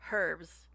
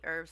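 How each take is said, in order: First: The word starts with an audible h sound. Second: The word starts without an h sound.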